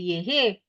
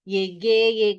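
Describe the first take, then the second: First: The middle consonant is an H sound. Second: The middle consonant is a hard G sound. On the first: The speaker calls it wrong. "You would say yehe, because G E is H, a H sound" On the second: The speaker calls it right. "you put in a U to make it a G sound"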